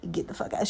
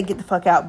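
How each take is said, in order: First: Unvoiced mock whisper of a rude dismissal; a whispered get-out, imagined from the cashier's face; whispered curse. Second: Said in the usual way. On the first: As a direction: breathe it out as an unspoken thought. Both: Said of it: "She, she don't say".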